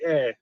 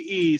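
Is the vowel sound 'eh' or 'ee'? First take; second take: eh; ee. First: The vowel is an open 'eh' sound. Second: The vowel is a high 'ee' sound. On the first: The speaker calls it right. "Say eh" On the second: The speaker calls it wrong. "don't say e"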